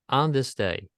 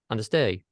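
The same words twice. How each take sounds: First: The first word is clear and emphasized. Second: The first word is rushed through quickly.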